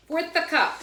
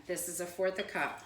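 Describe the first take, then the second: First: Put-on "Fourth a cup" in a loud, much higher Italian nonna accent; Italian accent impression of a grandmother. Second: Said in the usual way. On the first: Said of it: "with her Italian accent". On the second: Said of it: "sound like my grandmother".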